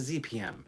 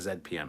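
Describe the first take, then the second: First: The letter Z is said as 'zee'. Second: The letter Z is said as 'zed'. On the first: The speaker calls it right. "It is a Z P M" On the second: The speaker calls it wrong. "It is not a Z P M"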